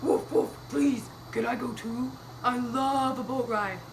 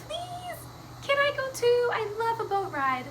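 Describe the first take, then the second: First: Woof, then beg as a puppy; pleading puppy. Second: High-pitched little kitty voice; pleading cat. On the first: Puppy asks Mister Gumpy for a ride, doggy pleading. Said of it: "Puppy said". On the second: Cat asks Mister Gumpy for a ride, high pleading. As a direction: beg in a tiny high cat voice. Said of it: "Cat said". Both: Acted.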